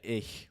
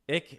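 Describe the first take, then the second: First: It is said with a standard German pronunciation. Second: It is said with a Berlin dialect pronunciation.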